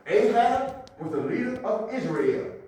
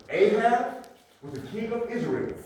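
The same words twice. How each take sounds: First: AHAB held, then LEADER pressed home; stress on LEADER. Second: AHAB drawn out and set apart before the rest; stress on AHAB. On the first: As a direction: restate it with weight on leader. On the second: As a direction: lean hard on Ahab, then name his title. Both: Shown as a demonstration. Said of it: "I'm emphasizing for a reason".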